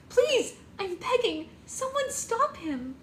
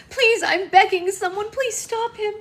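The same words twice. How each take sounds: First: Much higher, slow, desperate begging; hysterical pleading. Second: Much higher, much louder begging; full-voiced desperate begging; a bride begging as he leaves, louder; hysterical pleading. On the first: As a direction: drag out the plea, sobbing. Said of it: "Red hysterically cried". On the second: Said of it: "Red cried hysterically". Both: A narrator's reading.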